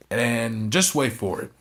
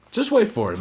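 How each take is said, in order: First: Slow, drawn-out setup; slow teasing build-up. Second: Much higher and louder, a burst of hype; excited payoff. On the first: Teasing viewers about the match ending, slowly. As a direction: stretch it out to tease the finish. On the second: Hyping viewers about the ending, high excited burst. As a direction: jump up in pitch to sell the surprise. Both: Shown as a demonstration.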